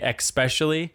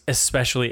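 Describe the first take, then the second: First: It has an added k sound before the s. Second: It has a plain s with no k sound. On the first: The speaker calls it wrong. "I had a friend in high school who would say especially" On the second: The speaker calls it right. "I tried so hard to convince her it was especially"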